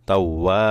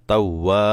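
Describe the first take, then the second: The two takes are said the same way.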